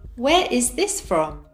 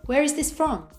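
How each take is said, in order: First: Each word is said separately and fully. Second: The words are linked and reduced together. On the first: "without connected speech" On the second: "with connected speech"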